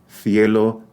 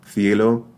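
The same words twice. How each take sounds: Both takes have the same delivery.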